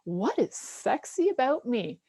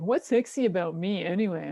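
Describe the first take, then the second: First: It is asked in an open, sincere way. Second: It is asked in a judgmental, dismissive way.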